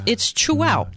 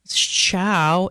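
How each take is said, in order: First: The name is said as two syllables. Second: The name is said as one syllable. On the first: The speaker calls it right. "It's chew out" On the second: The speaker calls it wrong. "you can't tell by looking at it"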